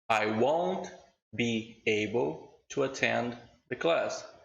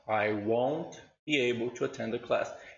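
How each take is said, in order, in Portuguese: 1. As palavras são ditas separadamente, uma por uma. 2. As palavras são ligadas suavemente umas às outras. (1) "eu vou ler a primeira vez normal" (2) "e depois conectado"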